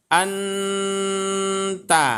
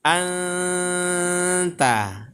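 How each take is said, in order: First: Anta read with a plain clear n; as written. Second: Anta with a blurred nasal n held long; recited with ikhfa. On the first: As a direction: say anta slowly as written, n crisp. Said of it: "kalau kita baca tulisannya". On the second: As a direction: let the n of anta fade into the t, hummed. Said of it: "kalau membacanya nanti". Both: Shown as a demonstration.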